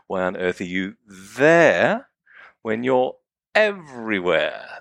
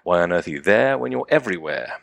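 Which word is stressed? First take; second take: there; none. First: The word there is given extra stress. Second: No word is given special stress. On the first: "The words I'm emphasizing are here, there" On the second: "read them once as, you know, as indiscriminately as I can"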